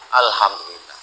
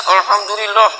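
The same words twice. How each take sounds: First: It sounds open, relieved and sincere. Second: It sounds grudging, angry and resentful.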